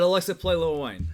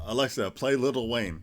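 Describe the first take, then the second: First: "Lil" said as one syllable; casual "Lil" run into the name; clipped "Lil". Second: "Lil" pronounced carefully as two syllables, lit-tle; neatly enunciated "little" for "Lil"; full "Little" in the rapper's name. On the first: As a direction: drop the t in little, just "Lil". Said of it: "Is how I said it". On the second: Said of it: "I said, Alexa, play Lil Wayne". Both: Retold or imitated.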